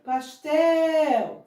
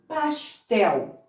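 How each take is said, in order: First: "Pastel" higher, with TEL drawn out; stressed last syllable. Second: Said in the usual way. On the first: Shown as a demonstration. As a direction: hold the end of "Pastel" long. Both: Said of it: "A última sílaba é a sílaba tônica".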